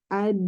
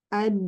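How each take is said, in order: First: The final d carries a flowing sound. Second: The final d carries a flowing sound.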